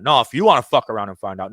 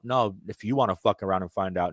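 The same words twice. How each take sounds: First: Louder, heated warning on "wanna"; passionate outburst. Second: Said in the usual way. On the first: Real, not acted. Host warns the government, louder heated outburst. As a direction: let the anger push the volume up. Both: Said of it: "a little bit of a passion here".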